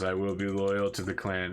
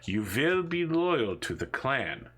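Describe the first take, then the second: First: Subdued, obedient repetition; brainwashed captive. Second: Slow, drawn-out mock-villain command; brainwashing interrogator. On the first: Acted. Captive repeating the interrogator's loyalty oath, subdued and obedient. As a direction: repeat the oath back submissively. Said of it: "the person just says". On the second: Interrogator making a captive repeat a loyalty oath, slow brainwashing command. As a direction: drill it in slowly, like an indoctrinator. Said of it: "you can hear him saying".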